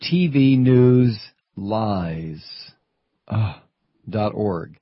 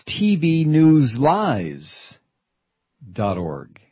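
First: Very slow, spaced-out letters; slow spelled out. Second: Slow, spaced-out letters; slow spelled out. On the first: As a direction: spell out each letter slowly. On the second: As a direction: spell it out slowly. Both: Shown as a demonstration. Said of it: "It's right there in the web address".

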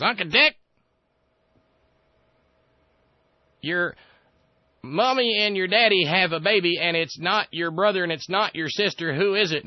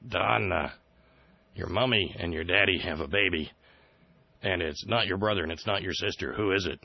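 First: Put-on much higher, louder childish whine; a smug kid showing off a riddle; mock Dear Leader. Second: Said in the usual way. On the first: The president quizzing Dick Cheney, in a high loud childish mock voice. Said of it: "he says". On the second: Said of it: "He says".

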